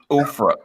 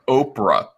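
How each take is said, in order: First: The middle consonant sounds like an f. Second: The middle consonant is a clear p. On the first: The speaker calls it wrong. "not Ofra" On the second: The speaker calls it right. "Soap. Soap. Ruh"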